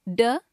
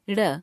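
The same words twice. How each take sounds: First: "ड" with the curled tongue tapping as a firm d; undotted ड sound. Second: "ड़" with the curled tongue flicked forward; dotted ड़ flap. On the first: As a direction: say "ड" as a hard retroflex stop. ("ड" का बिना बिंदु वाला मूर्धन्य स्पर्श उच्चारण) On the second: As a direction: say "ड़" as a retroflex flapped r. ("ड़" का बिंदु वाला उत्क्षिप्त उच्चारण) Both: Shown as a demonstration. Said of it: "आइए इनका उच्चारण करके देखते हैं".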